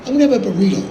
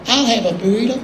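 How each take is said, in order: First: Said in the usual way. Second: Lightly voiced country singer echoing an order; a hint of an impersonated country friend. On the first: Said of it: "I said". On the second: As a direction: copycat order in another man's voice. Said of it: "and [name] goes".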